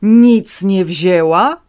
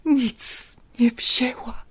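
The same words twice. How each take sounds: First: Loud, slow disbelieving question; raised voice. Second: Barely audible whisper. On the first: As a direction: throw the words back at him loudly. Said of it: "dziadek podniósł głos". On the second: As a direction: breathe it out, voice gone. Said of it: "wyszeptał ledwo słyszalnie". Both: A narrator's reading.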